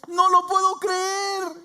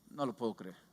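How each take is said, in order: First: It sounds happy, amazed and pleasantly surprised. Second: It sounds negative, doubtful and unbelieving. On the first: The speaker is amazed by something good. "cuando tú estás en otra manera" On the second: The speaker doubts it will happen. "en una manera negativa, con poca fe"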